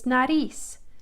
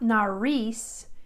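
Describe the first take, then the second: First: The R is a light tap of the tongue. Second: The R is a hard English-style R. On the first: The speaker calls it right. "it's nariz. So my tongue is just kind of tapping the ridge" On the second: The speaker calls it wrong. "It's not nariz"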